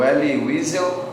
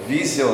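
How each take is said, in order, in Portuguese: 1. O nome começa com som de W. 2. O nome começa com som de V.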